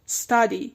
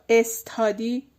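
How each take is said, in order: First: The s joins the next sound directly. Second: An extra vowel is added before the s. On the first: The speaker calls it right. "تادی بهش وصل کنین" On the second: The speaker calls it wrong. "بچه استادی نه،"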